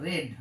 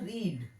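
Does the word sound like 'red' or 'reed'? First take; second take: red; reed. First: The vowel is short, like 'red'. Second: The vowel is long, like 'reed'. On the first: It is the form used in the passive sentence. "কিন্তু এখানকার উচ্চারণ হচ্ছে রেড" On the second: It is the form used in the active sentence. "এখানকার উচ্চারণ হচ্ছে রিড"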